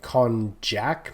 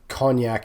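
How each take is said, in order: First: It is pronounced differently from the brandy name. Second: It is pronounced like the brandy name cognac. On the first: The speaker calls it right. "the closer pronunciation" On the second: The speaker calls it wrong. "Not cognac as in Hennessy"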